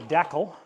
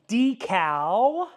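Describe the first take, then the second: First: Decal is said the Canadian way. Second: Decal is said the non-Canadian way.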